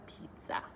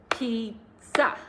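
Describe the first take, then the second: First: Said in the usual way. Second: Pizza in two beats, pi-zza, louder; clapped syllables. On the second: Shown as a demonstration. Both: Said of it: "let's try clapping to a few".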